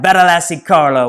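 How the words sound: It is said in an Italian accent.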